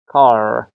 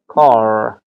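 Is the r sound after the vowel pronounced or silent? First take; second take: pronounced; pronounced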